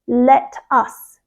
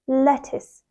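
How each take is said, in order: First: A strong T and a full 'us' ending. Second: The second syllable is soft, like 'is'. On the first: The speaker calls it wrong. "they really strongly stress that T sound" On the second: The speaker calls it right. "soft and blends nicely into the second syllable"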